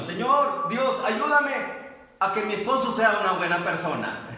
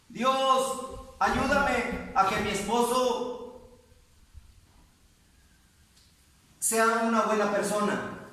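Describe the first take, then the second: First: Mock pleading prayer. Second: Slow, drawn-out imitated plea, slightly raised; churchgoer's pleading prayer. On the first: Preacher mimics the taught prayer for congregation, lightly mocking. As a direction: replay the prayer lightly, amused. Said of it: "porque así le han enseñado". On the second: Sister shows how her church taught her to pray, imitated plea. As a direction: imitate a earnest prayer with long pauses. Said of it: "me han enseñado a orar así".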